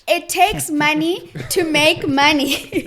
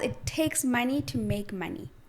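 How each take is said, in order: First: It is said more loudly. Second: It is said at a normal volume.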